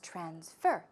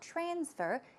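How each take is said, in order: First: The stress is on the second syllable. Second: The stress is on the first syllable. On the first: The speaker calls it right. "the stress goes right there on the second syllable" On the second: The speaker calls it wrong. "It's not"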